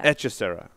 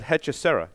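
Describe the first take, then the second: First: The first H is silent. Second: The first H is pronounced aloud. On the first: The speaker calls it right. "Silent H" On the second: The speaker calls it wrong. "I still pronounced it. It's because the H is there"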